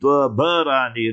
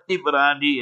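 First: It is four syllables, with a vowel between b and r. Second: It is three syllables, starting with an i vowel. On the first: The speaker calls it right. "remember how to pronounce it" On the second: The speaker calls it wrong. "not Tibrani"

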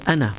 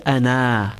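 First: The final vowel is kept short. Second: The final vowel is drawn out long. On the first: The speaker calls it right. "we say ana" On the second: The speaker calls it wrong. "we do not say ana"

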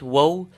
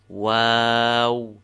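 First: The middle vowel is short. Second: The middle vowel is long. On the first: The speaker calls it wrong. "Not waw" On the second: The speaker calls it right. "there's an alif in between the two waws of its name"

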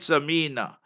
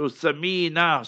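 First: The name begins with an s sound. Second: The name begins with a th sound. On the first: The name means a plump, fat person. The speaker calls it wrong. "Samina is with a seen, the way she pronounced it" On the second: The name means something precious or valuable. The speaker calls it right. "Alif Ba Ta Sa ... T-H-A"

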